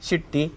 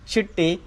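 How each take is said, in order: The two takes are said the same way.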